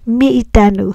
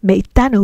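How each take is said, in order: First: The first syllable has an 'ee' vowel. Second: The first syllable has an 'eh' vowel. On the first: The speaker calls it wrong. "We don't say mi itanu" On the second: The speaker calls it right. "we say me itanu"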